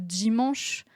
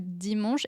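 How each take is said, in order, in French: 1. Le d est suivi d'un son bourdonnant dz. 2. Le d est une occlusive simple et nette. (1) "c'est plus que dimanche" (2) "plus que dimanche"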